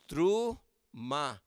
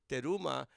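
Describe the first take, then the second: First: No vowel follows the t, giving two syllables. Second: A vowel follows the t, giving three syllables. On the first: The speaker calls it right. "It's a two syllable word" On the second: The speaker calls it wrong. "even though we say teruma"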